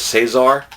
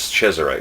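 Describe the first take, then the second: First: The name is said the American way. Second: The name is said the Italian way. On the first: The speaker calls it wrong. "I thought it was Cesar, and some Americans say Cesar" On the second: The speaker calls it right. "the actual Italian pronunciation is Cesare"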